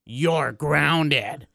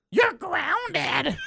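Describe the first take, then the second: First: Said in the usual way. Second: High, mocking mom voice; exaggerated imitation of a scolding mom; mom grounding him. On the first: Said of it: "She's going for the". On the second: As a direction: squeak out the punishment like an annoyed mother. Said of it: "Mom hangs up the phone".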